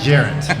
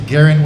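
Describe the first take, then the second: First: The name begins with a J sound. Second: The name begins with a hard G sound. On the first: The speaker calls it wrong. "It's not Jarrett" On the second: The speaker calls it right. "with a G"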